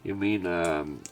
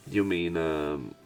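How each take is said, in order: Both takes have the same delivery.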